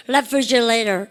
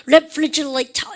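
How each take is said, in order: First: "refrigerator" with t voiced into an r sound; voiced flapped T. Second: "refrigerator" slowly, with a crisp unvoiced t; British full articulation. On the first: Teacher demonstrating for the class, T voiced as R. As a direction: soften the t in "refrigerator" to an r-like flap. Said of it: "T 발음을 다 R로 유성만 시켜보십시오". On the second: Teacher showing how British speakers say it, fully articulated. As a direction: sound out every consonant of "refrigerator", t kept hard. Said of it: "유성만 시키지 않고 다 얘기합니다". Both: Shown as a demonstration.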